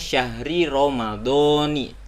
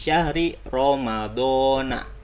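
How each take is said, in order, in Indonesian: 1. Kata terakhir berakhir dengan vokal 'i'. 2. Kata terakhir berakhir dengan vokal 'a'. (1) "Jadi dibacanya syahri ramadhani" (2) "tidak bisa menjadi syahri ramadhana"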